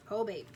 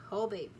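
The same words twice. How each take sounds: The two takes are said the same way.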